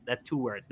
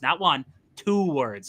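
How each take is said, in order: First: Said in the usual way. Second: "two words" said slowly, leaning on "two"; slow, pointed "two words"; stress on two. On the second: Shown as a demonstration. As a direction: spell it out, hitting "two". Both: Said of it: "Like, Green Bay".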